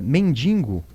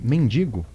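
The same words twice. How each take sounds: First: An extra n sound comes before the g. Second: No extra n sound comes before the g. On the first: The speaker calls it wrong. "coisa que as pessoas vão usando de maneira incorreta" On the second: The speaker calls it right. "ao invés de mendigo"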